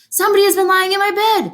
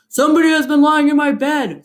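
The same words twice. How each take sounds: First: It is said in a medium voice. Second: It is said in a deep, gruff voice.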